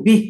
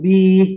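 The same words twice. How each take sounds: First: The final vowel is cut off short. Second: The final vowel is drawn out long. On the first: The speaker calls it right. "langsung, jangan dipanjangkan" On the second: The speaker calls it wrong. "jangan bi gitu ya"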